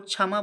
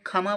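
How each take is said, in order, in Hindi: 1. यह ksh संयुक्त ध्वनि से शुरू होता है। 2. यह महाप्राण kh ध्वनि से शुरू होता है।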